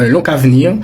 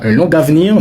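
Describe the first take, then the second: First: The linking sound before avenir is a k. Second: The linking sound before avenir is a g. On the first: The speaker calls it right. "il faut transformer la lettre G comme si vous aviez la lettre K" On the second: The speaker calls it wrong. "on ne dit pas un long avenir"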